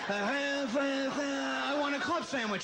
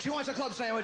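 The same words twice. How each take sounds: First: Drawn-out, higher garbled grandpa voice; grandpa tuning in. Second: Said in the usual way. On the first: Retold or imitated. Grandson shaking rabbit ears round grandpa's head, garbled drawn-out imitation. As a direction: stretch it slowly like a badly received broadcast coming in. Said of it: "shake it around his head". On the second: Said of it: "to get good Grandpa reception".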